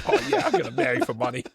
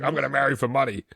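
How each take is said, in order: First: Put-on laughing through a thick Boston accent. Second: Thick Boston accent, hammed up. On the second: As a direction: say it like a Southie local. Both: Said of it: "a wicked bad Boston accent".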